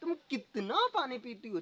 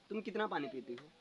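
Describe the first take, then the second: First: It is said with astonishment. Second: It is said as a plain question.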